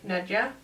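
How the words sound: The name is said the Danish way.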